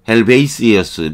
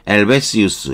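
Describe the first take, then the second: First: It is pronounced with English sounds, starting with h. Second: It is pronounced with French sounds, without the h.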